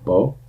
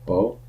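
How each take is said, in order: First: The vowel is held briefly and lightly. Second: The same.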